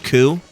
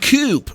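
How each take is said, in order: First: The word ends in a vowel with no P. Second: The word ends with an audible P sound. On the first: The intended word, a takeover of power. The speaker calls it right. "he means coup" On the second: It sounds like a shelter for birds. The speaker calls it wrong. "the voice actor pronounces the P"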